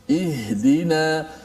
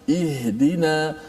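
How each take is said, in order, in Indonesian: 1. Bunyi h diucapkan jelas dengan hembusan napas. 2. Bunyi h diucapkan jelas dengan hembusan napas.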